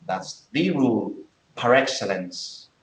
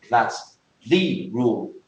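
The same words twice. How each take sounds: First: Slow, with "the" stressed as "thee" in "That's the rule"; emphatic "thee". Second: Slow, with "the" stressed as "thee"; emphatic "thee". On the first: Teacher giving a second emphatic example. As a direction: stretch out "the" as "thee". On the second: Teacher showing the emphatic article slowly. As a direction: lean on "the" in "that's the rule". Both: Shown as a demonstration. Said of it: "If you say something like".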